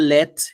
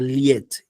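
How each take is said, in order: First: The vowel is a plain e sound. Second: The vowel starts with a y glide. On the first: The speaker calls it wrong. "Now it's not let" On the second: The speaker calls it right. "but liet"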